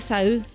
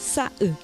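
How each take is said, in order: First: The vowels run together with no break. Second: A glottal break separates the vowels; last stressed. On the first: It can mean tear. "Si no tuviese la comita alta sería" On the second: It means color. "hay una pausa entre las dos vocales y se acentúa la última"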